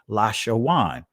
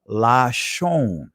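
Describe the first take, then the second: First: The word has three syllables, ending in -shawan. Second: The word has two syllables, ending in -shon. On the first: "if you pronounced it from an ancient Hebrew perspective" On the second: "This is the Israeli pronunciation of it"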